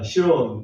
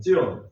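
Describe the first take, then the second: First: The word begins with a plain s sound. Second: The word begins with a tense ts sound. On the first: This is the usual Korean form. "시온이라고 하는 말을" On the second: This is the Hebrew pronunciation. "히브리 발음으로 제가 찾아보니까 찌온이더라고요"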